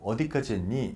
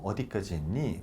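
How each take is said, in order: First: It is asked in a pressing, reproachful tone. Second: It is asked in a calm, neutral tone. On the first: It pushes the listener to hurry up. "다그치려고" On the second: It is just a check on progress. "그냥 확인하려고"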